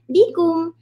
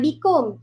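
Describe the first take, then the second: First: The last syllable has a 'u' vowel. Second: The last syllable has an 'o' vowel. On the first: The speaker calls it right. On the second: The speaker calls it wrong.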